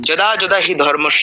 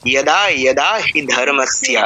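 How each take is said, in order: First: The first word begins with a 'j' sound. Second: The first word begins with a 'y' sound. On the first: The speaker calls it wrong. "যদা যদা হি ধর্মস্য নয়" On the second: The speaker calls it right.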